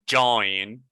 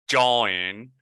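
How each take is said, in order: The two takes are said the same way.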